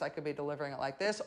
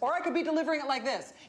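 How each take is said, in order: First: It is said calmly at normal volume. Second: It is said loudly, almost yelling.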